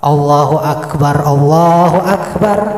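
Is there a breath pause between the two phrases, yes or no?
no. Both phrases are joined in one breath.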